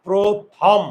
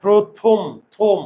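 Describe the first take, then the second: First: প্রথম split as "pro-tham", second vowel wide open; open-vowel version. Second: প্রথম loud, as "pro-thom" with rounded last vowel; closed "o" version. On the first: Teacher offering the class a choice, প্রথম with open "thawm". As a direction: say প্রথম in two beats, opening the last vowel to "aw". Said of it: "না প্রথম?". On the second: Teacher showing how we say it, প্রথম as a firm "pro-thom". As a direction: punch out প্রথম, then থম, both with closed "o". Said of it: "আমরা উচ্চারণ করি কি?". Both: Shown as a demonstration.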